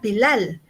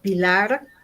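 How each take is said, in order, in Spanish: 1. El nombre termina en sonido L. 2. El nombre termina en sonido R. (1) "ellos me dicen, ah, Pilar" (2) "cuando a mí me preguntan cómo me llamo y digo Pilar"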